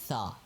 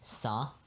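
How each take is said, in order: First: It starts with a th sound, tongue between teeth. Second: It starts with an s sound, Urdu-style.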